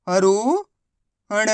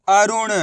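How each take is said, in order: First: अरुण drawn out very slowly, syllable by syllable; slow syllable stretch. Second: Said in the usual way. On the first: Shown as a demonstration.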